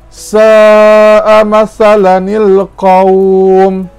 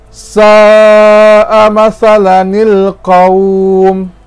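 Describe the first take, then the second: The two takes are said the same way.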